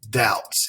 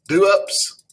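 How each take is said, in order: First: The B sound is left out entirely. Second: The B sound is pronounced in the middle. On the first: The speaker calls it right. "this B is silent. So we say it doubts" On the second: The speaker calls it wrong. "You think this word is do-ups?"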